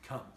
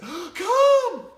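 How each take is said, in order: First: It is said calmly and evenly. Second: It is said with a gasp, excitedly.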